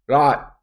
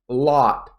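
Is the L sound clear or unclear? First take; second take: unclear; clear. First: The L sound is weak and unclear. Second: The L sound is clear and distinct. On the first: The speaker calls it wrong. "People make mistakes and they go like" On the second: The speaker calls it right. "you want that clear pronunciation"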